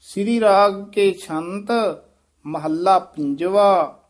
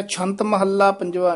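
First: ਛੰਤ, clear halt, then a slow ਮਹੱਲਾ ਪੰਜਵਾ; pause after ਛੰਤ. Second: ਛੰਤ straight into Mohalla, no pause; wrongly run together. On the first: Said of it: "ਇੱਥੇ ਠਮਕ ਲਾ ਦੇਣੀ ਹੈ". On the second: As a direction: rush through from ਛੰਤ to ਪੰਜਵਾ in one go. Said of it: "ਨਹੀਂ ਕਹਿਣਾ". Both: Shown as a demonstration.

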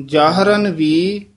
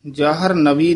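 First: ਜਾਹਰਨ ਵੀ, slow, a break before ਵੀ; ਜਾਹਰਨ, then ਵੀ, slowly; correct split. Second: ਜਾਹਰ ਨਵੀ split after ਜਾਹਰ, quickly; wrong split. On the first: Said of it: "ਜਾਹਰਨ ਬੋਲ ਕੇ ... ਵੀ ਨਾਲ ਬੋਲਣਾ ਹੈ". (ਜਾਹਰਨ ਵੀ ਸਹੀ ਵੰਡ) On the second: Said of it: "ਜਾਹਰ ਨਵੀ ਨਹੀਂ ਕਹਿਣਾ". (ਜਾਹਰ ਨਵੀ ਗ਼ਲਤ ਵੰਡ) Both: Shown as a demonstration.

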